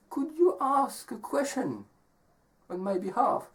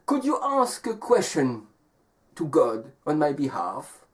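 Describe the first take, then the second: First: High, soft storybook woman; young woman asking. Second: Lightly voiced wolf making a request; wolf asking. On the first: Acted. Young woman asking the traveler a favor, high and soft. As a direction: make a gentle high-pitched request. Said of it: "And she says". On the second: Wolf asking the traveling man a favor, lightly acted request. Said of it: "The wolf says".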